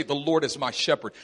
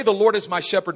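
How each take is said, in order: First: Said in the usual way. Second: "The Lord is my shepherd" said louder, each word pressed; proclaimed with force. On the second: Shown as a demonstration. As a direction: declare "The Lord is my shepherd" boldly. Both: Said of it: "To say".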